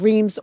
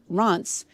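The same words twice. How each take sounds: First: The name is said with an anglicized pronunciation. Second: The name is said with a French pronunciation. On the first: This is how outsiders say it. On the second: This is how the locals say it.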